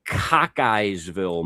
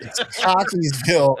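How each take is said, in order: First: Cockeyesville said as cock-eyes-ville, drawn out; mispronounced. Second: Cockeysville said as cockeys-ville, two syllables first; It's Cockeysville with a firm falling correction; correct pronunciation. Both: Shown as a demonstration.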